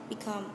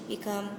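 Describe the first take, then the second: Both takes have the same delivery.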